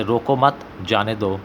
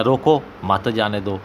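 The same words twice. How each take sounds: First: "रोको मत" as one phrase, break, then "जाने दो"; group मत with रोको, pause before जाने; pause after मत. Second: "रोको" on its own, then "मत जाने दो" together; pause after रोको. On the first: ("रोको मत" के बाद ठहराव) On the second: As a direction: break before मत, joining it to जाने दो. ("रोको" के बाद ठहराव, फिर "मत जाने दो") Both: Shown as a demonstration. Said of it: "दरमियान में सख्ता इस्तेमाल नहीं".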